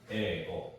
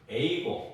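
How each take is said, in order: First: The first vowel is a single long e. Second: The first vowel glides from e to i. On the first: The speaker calls it right. "그래서 에고라고 발음을 해줘야 됩니다" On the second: The speaker calls it wrong. "에이고 이렇게 하면 안 돼요"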